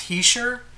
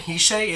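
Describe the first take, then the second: First: The name ends in an 'sher' sound. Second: The name ends in a plain 'sh' sound. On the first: The speaker calls it right. "It's Hisher" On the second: The speaker calls it wrong. "It's not even Hishe"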